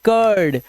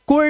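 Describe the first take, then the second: First: The vowel sounds like er in her. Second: The vowel sounds like oo in put. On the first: The speaker calls it right. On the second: The speaker calls it wrong.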